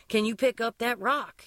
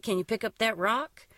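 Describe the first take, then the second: First: Repeated a touch louder, a bit slower; a little louder, slower. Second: Said in the usual way. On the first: A narrator's reading. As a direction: repeat it for someone who didn't hear. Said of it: "a little louder, a little slower". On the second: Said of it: "he repeated, a little louder".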